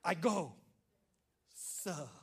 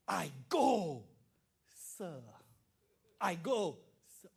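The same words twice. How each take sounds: First: Polite, trailing off; respectful answer. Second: Louder, eager polite answer; bow and say it with respect; a dutiful son answering his father; respectful son. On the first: Shown as a demonstration. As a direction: model the perfect answer. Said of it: "this is how you do an answer". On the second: Retold or imitated. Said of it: "so honoring, so much respect".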